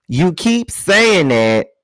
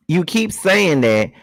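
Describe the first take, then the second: First: Slow, louder, high, leaning on "saying"; stress on saying. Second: Slow, high, punching "keep"; stress on keep. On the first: Reading her text back, leaning hard on "saying". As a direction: drag out "saying" in You keep saying that. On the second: Repeating her text, now punching "keep". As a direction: hit the word "keep" harder than the rest. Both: Shown as a demonstration.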